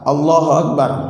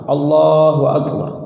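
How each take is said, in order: First: The phrase is said quickly with short vowels. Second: The phrase is said slowly with lengthened vowels. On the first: The heart may not be present in the prayer. The speaker calls it wrong. "kalau ada Allah Akbarnya cepat" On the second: It follows the recitation rules properly. The speaker calls it right. "Sehingga harus panjang"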